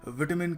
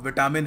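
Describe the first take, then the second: First: It is said with a British pronunciation. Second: It is said with a common Indian pronunciation. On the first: The speaker calls it right. "British थोड़ा विटामिन कहते हैं" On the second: The speaker calls it wrong. "इसकी बहुत ही गलत pronunciation है"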